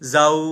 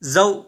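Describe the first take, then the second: First: The vowel is stretched out and drawn long. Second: The word is clipped short with a jerk. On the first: "हमने यहां पर इसे खींचा नहीं है, ऐसे नहीं पढ़ा हमने" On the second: "हमने इसे बिल्कुल जल्दी से भी नहीं पढ़ा"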